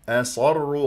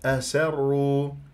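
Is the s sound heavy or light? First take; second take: heavy; light. First: The s is heavy, like an emphatic s. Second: The s is light and thin. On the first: The speaker calls it wrong. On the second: The speaker calls it right.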